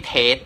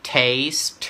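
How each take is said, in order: First: "taste" as เทด, no S before the stop; wrong final sound. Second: "taste" with long AY, hissed S and released T; long vowel, final ST. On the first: Tutor shows students what not to say, wrong final sound. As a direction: cut "taste" to "tate", swallowing the ending. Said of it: "ไม่ใช่ดอเด็ก ไม่ใช่ taste". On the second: Tutor models the first word for students, long vowel with final ST. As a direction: lengthen "taste" and finish on a clear ST. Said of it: "เสียงยาวนะครับผม ลงท้ายด้วย st". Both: Shown as a demonstration.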